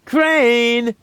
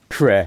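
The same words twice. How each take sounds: First: Calling out. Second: Said in the usual way. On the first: Acted. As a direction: shout across the room to Crane. Calling out for Crane.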